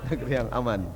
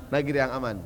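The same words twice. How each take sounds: The two takes are said the same way.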